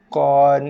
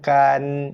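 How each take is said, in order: First: The syllable starts with a heavy, deep back consonant. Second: The syllable starts with a light front consonant. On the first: The speaker calls it right. "Tibaqan, kon" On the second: The speaker calls it wrong. "bukannya kan"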